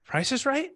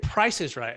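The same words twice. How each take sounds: First: Price is right? said with a high curious rising lift. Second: Said in the usual way. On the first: Shown as a demonstration. Coach demonstrates mirroring a seller in a curious voice. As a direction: turn the seller's words into a curious question, pitch rising high. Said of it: "Like, in a curious voice". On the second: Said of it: "So I said".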